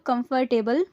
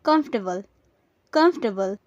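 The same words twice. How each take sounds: First: "कंफर्टेबल" in full syllables, kum-fur-TAY-bul; common mispronunciation. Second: "कंफर्टेबल" squeezed to three beats, KUMF-tuh-bul; correct pronunciation. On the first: Teacher showing what people often say, "कंफर्टेबल" as kum-fur-tay-bul. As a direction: say "कंफर्टेबल" with a full "table" ending. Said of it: "अक्सर लोग कंफर्टेबल बोलते हैं". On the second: Teacher giving learners the right form, "कंफर्टेबल" as KUMF-tuh-bul. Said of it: "इसकी सही pronunciation होगी". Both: Shown as a demonstration.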